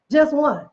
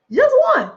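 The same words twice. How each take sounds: First: Said in the usual way. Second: High, loud peak of the refrain; climactic shout. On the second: Acted. Preacher driving home the mustard-seed lesson, ringing high and loud. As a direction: belt it out at the top.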